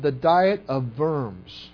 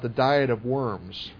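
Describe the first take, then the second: First: Worms is said with a German accent. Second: Worms is said with an English accent. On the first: The speaker calls it right. "you have to say it with that German accent" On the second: The speaker calls it wrong. "or otherwise it comes out the Diet of Worms"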